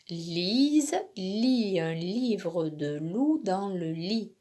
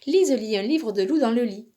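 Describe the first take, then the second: First: The sentence is said at a moderate pace. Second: The sentence is said quickly. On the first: "Je te le redis" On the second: "de plus en plus vite"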